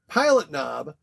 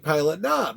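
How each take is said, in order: First: The stress falls on the word pilot. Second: The stress falls on the word knob. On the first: "He says pilot knob" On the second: "I put the emphasis on the knob"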